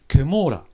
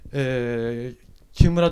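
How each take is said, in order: First: The name is said with English-style pronunciation. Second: The name is said with Japanese pronunciation. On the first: This is how Americans misread the name. The speaker calls it wrong. "これ英語的な発音すると、こういう感じになるんですね。" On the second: This is the correct reading of the name. The speaker calls it right. "木村と読まないで"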